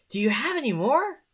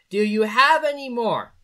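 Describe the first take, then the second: First: The pitch moves up and down more. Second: The pitch stays almost flat throughout.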